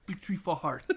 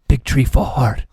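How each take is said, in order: First: Said in the usual way. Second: Very loud, slow movie-quote boom; booming taunt. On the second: Retold or imitated. Player taunting a fallen opponent, slow booming shout. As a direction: boom it out slowly, word by word.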